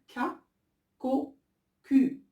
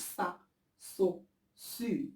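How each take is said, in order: First: The syllables begin with a K sound. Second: The syllables begin with an S sound. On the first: The speaker calls it right. "كنقول K, CO, Q" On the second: The speaker calls it wrong. "ما كنقولش صا صو سو"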